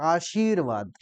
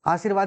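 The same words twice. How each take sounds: First: The 'shi' syllable is pressed with clear force. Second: The 'shi' syllable is said lightly, without pressure. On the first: The speaker calls it right. "उस पे दबाव डाल के सी पे दबाव" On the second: The speaker calls it wrong. "ऐसे तो बोलते हैं अवधि में"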